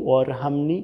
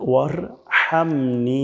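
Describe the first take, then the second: First: ওয়ারহামনি with a plain h; Bangla-style ওয়ারহামনি; wrong warhamni. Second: ওয়ারহামনি with a throaty Arabic ha; right ওয়ারহামনি; correct warhamni. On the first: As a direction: mistaken ওয়ারহামনি. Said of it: "তাহলে কিন্তু ভুল হচ্ছে". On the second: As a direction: breathe the ha in ওয়ারহামনি. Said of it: "এখানে ওয়ারহামনি হবে না". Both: Shown as a demonstration.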